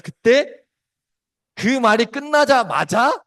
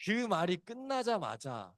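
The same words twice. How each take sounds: First: Slow, high and loud, building suspense; dramatic loud build. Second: Slow, much softer hush; hushed suspense. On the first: Preacher building suspense before the rooster crows, slow and loud. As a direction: hold the moment with a loud rising push. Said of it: "dramatic build before rooster crow". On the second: Preacher hushing the church before the rooster crows, slow and soft. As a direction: drop to a near hush to hold the room. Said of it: "dramatic hush after long pause". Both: Shown as a demonstration.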